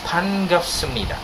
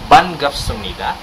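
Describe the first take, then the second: First: The word begins with a p sound. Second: The word begins with a b sound. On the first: The speaker calls it right. "it's panggapsumnida. Payo is really sound P" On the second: The speaker calls it wrong. "But it's not banggapsumnida"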